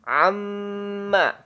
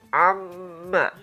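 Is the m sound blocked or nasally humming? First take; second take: nasally humming; blocked. First: The m hums through the nose. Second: The m sounds blocked, with no nasal hum. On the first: "yang dimaksud gunnah itu" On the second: "Kalau ditutup hidung, itu kita tidak bisa dengung"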